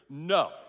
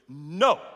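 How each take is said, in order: First: It is said softly, without much force. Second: It is said forcefully, as if meant.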